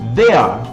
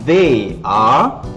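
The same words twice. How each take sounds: First: It is said as one short contracted word. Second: It is said as two full separate words. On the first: "dipendekkan, diringkaskan jadi they are" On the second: "perkataan asal dia adalah they are"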